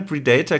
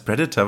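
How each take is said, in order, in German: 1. Das Wort wird langsam und langgezogen gesagt. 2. Das Wort wird schnell und leicht gesagt. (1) "klingt auch viel einschüchternder" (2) "das ist so schnell ausgesprochen"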